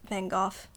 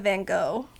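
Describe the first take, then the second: First: The name is said the European way. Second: The name is said the American way.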